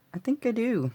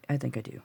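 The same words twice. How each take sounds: First: Much higher, falling at the end; playful high repeat. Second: Said in the usual way. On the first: Real, not acted. Crafter reassuring viewers she got it right, playfully high.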